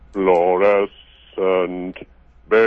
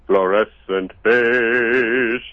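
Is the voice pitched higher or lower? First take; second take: lower; higher. First: It is said in an even lower voice. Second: It is said in a deep but higher voice.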